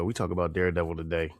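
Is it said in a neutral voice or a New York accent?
neutral voice. It is said in his normal neutral voice.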